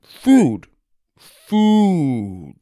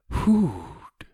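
First: Food said while chewing a big bite; mouthful. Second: Thin, airy, falling food; the stranger repeating Doug's word in his own thin voice; wispy stranger's echo. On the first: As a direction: push the word out past the chocolate. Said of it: "he said with a mouthful". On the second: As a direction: echo the new word slowly like a discovery. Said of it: "he repeated". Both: Acted.

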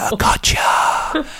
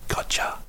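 First: Drawn-out, high, whispery gotcha; gloating mock whisper. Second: Soft, quiet inward aside; gloating private thought. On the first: Collector savouring the trap to himself, gloating whisper. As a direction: relish it in a slow, hammed-up whisper. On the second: Retold or imitated. Collector's secret thought as debtor screams, quiet gloating. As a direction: think it to yourself, barely voiced. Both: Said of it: "and I'd think".

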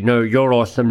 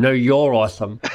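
First: Said in the usual way. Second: Laughing through the words. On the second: Real, not acted. Host repeats the compliment to his guest, laughing. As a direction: say it again, giggling.

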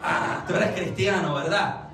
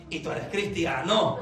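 First: «Ah» de quien cae en cuenta, luego «cristiano» afirmado; reconocimiento. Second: Pregunta grave que pone en duda CRISTIANO; pregunta con recelo. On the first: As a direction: afirma «cristiano» en tono grave y confirma con «¿verdad?». (constatación convencida) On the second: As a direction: pregunta «¿Y tú eres cristiano?» como si no lo creyeras. (duda marcada en «cristiano») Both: Shown as a demonstration. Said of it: "connotación completamente diferente".

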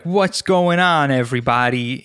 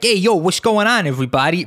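First: Rob. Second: High, over-the-top New York greeting; fake New York accent. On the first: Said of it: "Rob is, he's, like, in between". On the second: Guest demonstrating his hundred-percent fake New York accent, hammed-up. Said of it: "when I do a New York accent". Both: Shown as a demonstration.

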